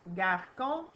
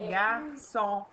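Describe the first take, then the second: First: The c sounds like a hard k. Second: The c sounds like a soft s. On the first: The speaker calls it wrong. "ça fait pas garcon" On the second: The speaker calls it right. "ça fait garçon"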